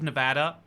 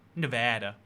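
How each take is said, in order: First: It is said in a non-American accent. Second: It is said in an American accent.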